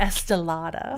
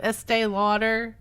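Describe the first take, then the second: First: The name is run together as 'Estelada'. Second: The name is said in its usual form. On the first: This imitates a relative's fancy way of saying it. "she'd say Estelada. ... She was fancy like that" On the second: This is the ordinary way the name is said. "Instead of Estee Lauder"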